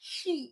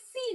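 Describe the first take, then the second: First: It begins with a heavier sh sound. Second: It begins with a thin s sound. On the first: The speaker calls it right. "একটু ভারী করে" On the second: The speaker calls it wrong. "এটা সি না"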